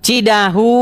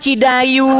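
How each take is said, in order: First: The middle consonant is an h sound. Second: The middle consonant is a y sound. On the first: The speaker calls it right. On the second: The speaker calls it wrong.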